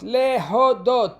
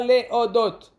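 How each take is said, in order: First: The h sound is clearly pronounced. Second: The h sound is dropped like a glottal stop. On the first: The speaker calls it right. "להודות, pas להודות" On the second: The speaker calls it wrong.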